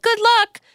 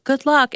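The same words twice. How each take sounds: First: Good luck thrown high and bright, sarcastically cheery; mock chipper. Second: Said in the usual way. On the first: Mocking a friend's careless hospital text, in a high sarcastic chirp. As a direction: parody how hollow it sounded. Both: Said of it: "And it was like".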